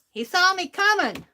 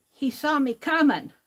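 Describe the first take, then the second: First: He saw me coming with "saw" pushed higher and louder; higher, louder retelling that leans on "saw"; emphatic repeat. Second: Said in the usual way. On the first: Shown as a demonstration.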